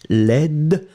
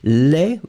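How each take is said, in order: First: The word ends with a soft D sound. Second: The word ends without any D sound. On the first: It describes a feminine noun. "laid féminin" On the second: It describes a masculine noun. "Laid masculin"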